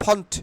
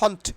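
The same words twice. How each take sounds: Both takes have the same delivery.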